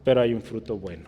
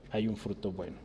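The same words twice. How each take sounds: First: Said in the usual way. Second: Soft echo. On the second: Acted. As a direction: repeat "hay un fruto bueno" much softer, a quiet echo. Eco suave de la frase. (eco suave, casi murmurado)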